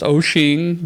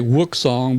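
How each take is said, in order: First: It begins with a vowel, ending in shing. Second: It begins with a w sound, ending in song. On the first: The speaker calls it right. "I think it is Oshing" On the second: The speaker calls it wrong. "I say Wooksong, but that ain't right"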